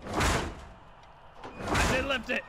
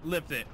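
First: Slow higher forceful command; stern repeated order. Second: Said in the usual way. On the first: Real, not acted. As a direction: demand it impatiently, slowly.

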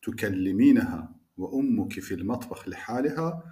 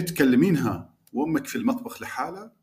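First: تکلمینها with full classical vowels, tukelliminaha; careful fusha reading; formal Arabic pronunciation. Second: Iraqi colloquial تکلمینها with short clipped endings; dialect pronunciation. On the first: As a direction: say لحالها as liħaliha, every vowel spelled out. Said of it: "باید اینجوری تلفظ کنم". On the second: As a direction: say لحاله the dialect way, vowels dropped. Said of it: "اگه بخوام فصیح تلفظش کنم". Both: Shown as a demonstration.

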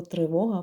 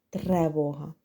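First: Said in the usual way. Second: Тревога with е in the first syllable, lower; wrong form sounded out. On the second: Shown as a demonstration. Teacher shows the common mistake тревога. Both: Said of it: "це дуже часта помилка".

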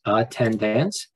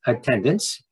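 First: Attendance slowly sounded out as at, ten, dance; three separate syllables. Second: Said in the usual way. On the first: Shown as a demonstration. Teacher counting syllables for students, attendance slowly broken in three. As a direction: spell out the beats of attendance, full vowel in the last. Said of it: "there are three syllables". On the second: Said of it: "we see that there are three syllables".

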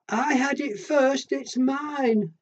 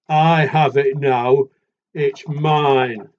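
First: High and slow, insisting; little animal voice. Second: Loud and slow, firm; big animal voice. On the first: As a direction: whine it out like a small child. Little animal claims the chair. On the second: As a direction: boom the claim like the big one. Big animal claims the chair. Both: Acted.

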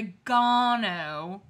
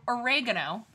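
First: Oregano with stress on GAH, long ah: o-ri-GAH-no; British oregano pronunciation. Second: Oregano with stress on REG: uh-REG-uh-no; American oregano pronunciation. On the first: Retold or imitated. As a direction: say oregano as o-ri-GAH-no, leaning on the third syllable. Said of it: "had the fucking nerve to say". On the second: Shown as a demonstration. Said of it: "instead of oregano".

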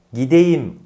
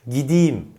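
First: "gideyim" as gi-de-yim with clear e; as written. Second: "gideyim" as gi-di-yim; spoken form. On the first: Teacher introduces the spelling, "gideyim" as gi-de-yim. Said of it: "olarak yazılan". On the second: Teacher introduces the spoken word, "gideyim" as gidiyim. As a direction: raise the e of "gideyim" to i. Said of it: "olarak okunan yahut söylenen". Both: Shown as a demonstration.

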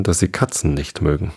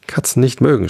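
First: Said in the usual way. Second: Higher-pitched, restrained angry echo; furious screech. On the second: A narrator's reading. The mouse throws Alice's words back, mildly screeched fury. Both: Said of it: "schrie die Maus mit kreischender, wütender Stimme".

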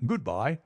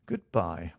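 First: High-pitched, rising good-bye; bright farewell. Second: Said in the usual way. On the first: Acted. Stamford takes leave of Watson, high rising farewell. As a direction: lift the farewell up at the end. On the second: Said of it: "I answered".

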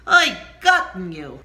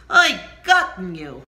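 First: Anguished cry. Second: Loud anguished wail; pained shout; crying out in pain. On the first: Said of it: "that's how you build on the word oi". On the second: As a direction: cry out to God for help. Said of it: "I cried out in pain". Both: Shown as a demonstration.

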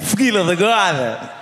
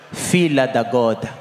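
First: "filha da goda" in a European Portuguese accent, raised; Portuguese accent with "filha da goda" lifted a little. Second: Said in the usual way. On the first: Shown as a demonstration. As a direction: say "filha da goda" like a Lisbon local. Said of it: "Com sotaque mesmo português". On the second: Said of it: "em três".

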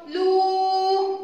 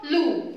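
First: لو held long as "luuu"; sustained long لو; long vowel. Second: لو as a brief "lu"; quick, clean short لو; short vowel. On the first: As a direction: sing out لو on one high steady note. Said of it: "ضمة مد واو صوتها". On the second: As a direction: say لو short, no stretch. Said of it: "الضمة لوحدها صوتها". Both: Shown as a demonstration.

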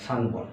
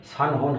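First: সানবন with a b sound; সানবন said with b instead of h; correct sanbon. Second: সানহন said with an h, the wrong way; সানহন, h sound, marked as wrong; wrong form sanhon. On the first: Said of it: "উচ্চারণটা হবে সানবন". (সঠিক উচ্চারণ সানবন) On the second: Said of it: "সানহন হবে না". (ভুল উচ্চারণ সানহন) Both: Shown as a demonstration.

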